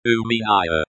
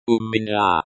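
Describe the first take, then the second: First: "Uminaya" in English sounds, oo-meen-EYE-uh; anglicized pronunciation. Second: "Umina" said the Russian way, oo-mi-NYA; Russian pronunciation. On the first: Language teacher showing learners the pronunciation, anglicized "Uminaya". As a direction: read "Uminaya" like an English transliteration. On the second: Language teacher showing learners the pronunciation, Russian "Umina". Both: Shown as a demonstration.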